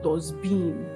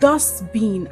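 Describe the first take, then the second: First: The stress is on the second syllable. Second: The stress is on the first syllable. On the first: The speaker calls it wrong. "and not dustbin" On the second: The speaker calls it right. "the stress is often placed on the first syllable"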